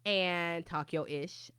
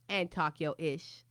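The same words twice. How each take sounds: The two takes are said the same way.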